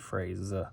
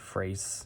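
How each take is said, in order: First: The word ends with a buzzing Z sound. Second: The word ends with a hissing S sound. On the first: The speaker calls it right. "you might pronounce it more of a Z" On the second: The speaker calls it wrong. "it wouldn't be phrase"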